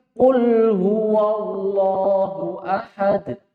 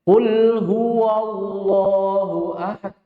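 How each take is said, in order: First: "Qul huwallahu ahad" recited slowly with a clear light "wa"; slow, careful chant keeping the wawu thin; correct light recitation. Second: "Qul huwallahu ahad" chanted slowly with "huwa" rounded toward "hu"; slow chant with a wrongly heavy wawu; mistaken heavy recitation. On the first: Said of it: "Kenapa dibaca". ("Qul huwallahu ahad" dibaca pelan dengan wawu tipis) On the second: ("Qul huwallahu ahad" dilagukan pelan dengan wawu tebal) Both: Shown as a demonstration.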